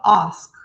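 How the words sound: It is said in a British accent.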